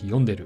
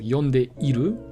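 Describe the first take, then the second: First: The 'i' after 'te' is dropped. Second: The 'i' after 'te' is pronounced. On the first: "many Japanese people just don't say the i" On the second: "which is usually there"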